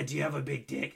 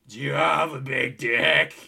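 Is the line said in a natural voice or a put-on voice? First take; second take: natural; put-on. First: It is said in the speaker's ordinary voice. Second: It is said in an imitated, put-on voice.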